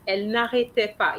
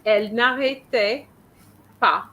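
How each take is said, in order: First: Elle n'arrêtait pas said fast as a single unit; in one go. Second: Elle n'arrêtait … pas with a pause before pas; mock broken phrase. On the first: Teacher showing Anna the phrase in one fast go. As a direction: run it together quickly. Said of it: "All this needs to be in one go". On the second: Teacher imitating Anna's pause before pas. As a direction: imitate the student's split. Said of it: "You say you said". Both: Shown as a demonstration.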